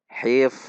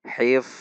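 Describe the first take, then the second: First: The word ends in an unstopped f sound. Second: The word ends in an unstopped f sound.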